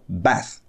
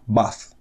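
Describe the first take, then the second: First: It is said with an American accent. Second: It is said with a British accent.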